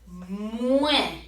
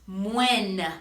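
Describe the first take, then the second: First: It ends in a vowel without an N sound. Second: It ends with a clearly pronounced N sound. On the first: The speaker calls it right. "Take note that we are saying moi" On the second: The speaker calls it wrong. "it is not moen"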